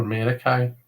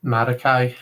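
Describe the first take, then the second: First: Marikai with "eh" in first syllable; "eh" first vowel. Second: Marikai with open "ah" in first syllable; open first vowel. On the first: Offering another Greek pronunciation, Marikai with an "eh". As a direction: say Marikai starting "MEH-ri". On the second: Offering a possible Greek pronunciation, Marikai with an "ah". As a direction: say Marikai starting "MAH-ri". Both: Shown as a demonstration. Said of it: "it would be something like".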